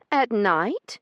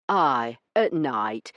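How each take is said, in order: First: High, loud questioning lady's voice rising; Io's repeat. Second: Iron in his voice. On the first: Io echoing Branson's demand, high questioning rise. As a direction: repeat it back in disbelief. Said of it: "she repeated flatly". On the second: Branson insisting on night delivery, iron-hard. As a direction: lay it down as final. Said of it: "with more iron in his voice". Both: Acted.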